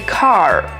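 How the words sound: The final R sound is pronounced. "which is more American"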